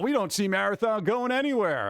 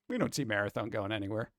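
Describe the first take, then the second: First: It is said in a cheerful, positive tone. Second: It is said in a flat, mocking tone. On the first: The game will be around for a long time. "Bungie's all positive, like, oh" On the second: The game is going to fail. "this is my tone"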